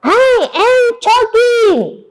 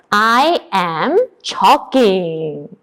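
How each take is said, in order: First: High, drawn-out cry; acted desperate wail; louder repeat. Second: Said in the usual way. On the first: Shown as a demonstration. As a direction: shout it slowly for the class.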